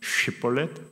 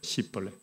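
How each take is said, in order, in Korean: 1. 이 단어는 sh 소리로 시작합니다. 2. 이 단어는 s 소리로 시작합니다. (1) "길르앗 사람들은 쉐볼렛 하고" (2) "시볼렛 하면 그게 에브라임 사람들이니까"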